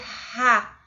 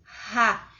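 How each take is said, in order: First: The consonant is a dry, harsh throat sound. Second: The consonant is a dry, harsh throat sound.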